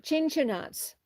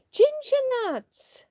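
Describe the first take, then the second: First: Said in the usual way. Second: Ginger nuts called out. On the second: Shown as a demonstration.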